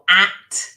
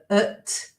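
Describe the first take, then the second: First: The vowel is a full, clear a sound. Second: The vowel is reduced to a weak schwa. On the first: "full form" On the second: "weak form"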